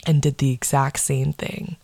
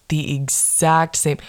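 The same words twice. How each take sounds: First: Said in the usual way. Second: "exact same" drawn out slowly, each word weighted; slow it down and lean on "exact"; slow emphatic repeat. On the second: Acted.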